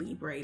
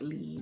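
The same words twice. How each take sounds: First: The word is said with an American pronunciation. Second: The word is said with a French pronunciation. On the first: The speaker calls it wrong. "That is how we say it in the U S" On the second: The speaker calls it right. "it's technically pronounced Libre"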